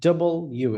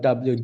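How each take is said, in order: First: It is said as 'double you', two clear parts. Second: It is said as 'dub-lyu', run together. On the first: The speaker calls it right. "এরকম" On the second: The speaker calls it wrong. "Not ডাব্লিউ"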